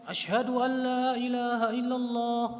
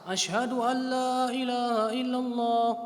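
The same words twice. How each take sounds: The two takes are said the same way.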